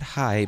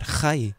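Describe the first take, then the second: First: Said in the usual way. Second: "hi" with a rough throaty h; learner's "hi", heavy h; accented hi. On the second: Retold or imitated. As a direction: scrape the h of "hi" like a Spanish j. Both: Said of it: "not hi, but hi".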